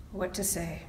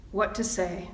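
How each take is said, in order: First: Much softer, to himself; quiet repeat. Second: Said in the usual way. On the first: Real, not acted. Minister musing to himself about the sermon, much softer. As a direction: drop the repeat almost under the breath. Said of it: "repeated musing question". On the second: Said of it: "musing question".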